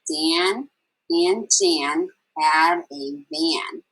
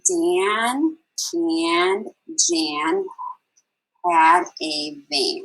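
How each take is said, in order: First: The sentence is read at a normal pace. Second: The sentence is read slowly.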